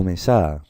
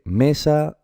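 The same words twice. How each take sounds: First: Mesá said slowly as me-SA; wrong stress on SA. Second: Mesa said slowly as ME-sa; stress on first syllable. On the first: Teacher offers pupils the wrong option, mesá stressed as me-SA. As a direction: throw the weight onto the final SA of mesá. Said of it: "¿se dice mesa o mesá?". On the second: Teacher offers pupils the right option, mesa stressed as ME-sa. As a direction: punch the ME of mesa, drawn out. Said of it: "Pues se dice mesa". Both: Shown as a demonstration.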